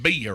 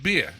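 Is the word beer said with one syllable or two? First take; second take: two; one. First: The word is stretched into two syllables. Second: The word is said as one syllable. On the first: This is how locals down south say it. "Down here, two a beer is a two syllable word" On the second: This is how a New Yorker says it. "I said beer"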